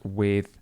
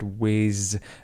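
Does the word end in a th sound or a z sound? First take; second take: th sound; z sound. First: The word ends with a soft th sound. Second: The word ends with a buzzing z sound. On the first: The speaker calls it right. "and not with" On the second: The speaker calls it wrong. "He said whiz"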